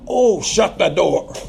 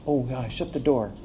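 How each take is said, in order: First: It is said in a harsh, ungracious tone. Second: It is said in a gracious, kind tone.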